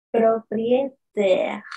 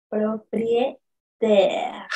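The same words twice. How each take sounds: First: Propriétaire whispered slowly. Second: Propriétaire voiced, very slow. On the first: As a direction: whisper it to show lips. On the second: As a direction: demo with clear voice. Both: Shown as a demonstration. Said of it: "Miren cómo yo pongo la posición de mis labios".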